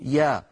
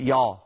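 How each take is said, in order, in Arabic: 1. تُنطق يا مرقّقة وخفيفة. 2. تُنطق يا مفخّمة وثقيلة. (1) "لابد من أن نرققها فنقول" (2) "فلا نقول يا"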